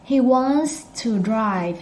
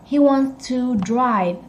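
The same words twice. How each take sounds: First: The word 'to' is soft and reduced. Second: The word 'to' is said fully and clearly. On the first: The speaker calls it right. "But when you say it" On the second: The speaker calls it wrong. "You don't say that. That's how you spell it"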